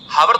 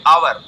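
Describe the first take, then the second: First: The word begins with a pronounced h sound. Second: The word begins with a vowel, h silent. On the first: The speaker calls it wrong. "हावर थोड़ी ना पढ़ेंगे" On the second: The speaker calls it right. "आवर में आ निकल रहा है"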